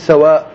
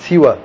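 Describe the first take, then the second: First: The first vowel is a, as in sawa. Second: The first vowel is i, as in siwa. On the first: "سین کے اوپر فتحہ ہے" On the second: "سین کے نیچے کسرہ ہے، زیر ہے"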